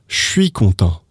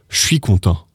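The two takes are said the same way.

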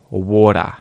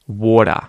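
No difference in how they are said.

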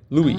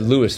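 First: The name is pronounced in the French way. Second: The name is pronounced in an English way. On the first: The speaker calls it right. "is pronounced the French way" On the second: The speaker calls it wrong. "I shouldn't have said Louis when I first read it there"

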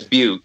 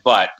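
First: The vowel is a long 'yoo' sound. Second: The vowel is a short 'uh' sound. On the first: The speaker calls it right. "I believe it's Butte" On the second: The speaker calls it wrong. "But we all call it Butt"

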